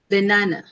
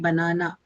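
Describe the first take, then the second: First: It is said with light, unstressed vowels, non-Indian. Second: It is said with an Indian English accent.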